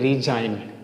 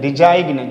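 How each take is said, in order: First: No g sound is heard before the n. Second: A g sound is heard before the n. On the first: The speaker calls it right. "इसको बोलेंगे रिजाइन" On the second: The speaker calls it wrong. "बहुत सारे बच्चे बोलते हैं रिजाइग्न"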